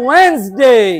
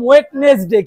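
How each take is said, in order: First: The middle 'd' is silent, two syllables. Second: The middle 'd' and extra syllable are pronounced. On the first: The speaker calls it right. "বলতে হবে ওয়েনসডে" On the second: The speaker calls it wrong. "আগে আমরা এটাকে বলতাম ওয়েডনেসডে ... ভুল"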